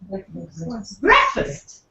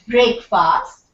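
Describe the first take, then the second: First: The first syllable sounds like 'brek'. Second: The first syllable sounds like 'break'. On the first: The speaker calls it right. "it's breakfast. ... B R E K ... F U S T" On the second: The speaker calls it wrong. "So it's not breakfast"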